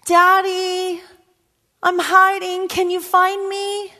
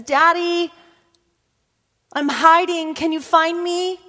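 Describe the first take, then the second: First: Put-on high child's call, drawn out slow; girl calling her daddy; little girl's voice again, slower. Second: Put-on high, small child calling daddy; girl calling her daddy; little girl's voice. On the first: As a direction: repeat it slower, pleading a little. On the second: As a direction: call out like a four-year-old playing hide and seek. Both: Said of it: "she says".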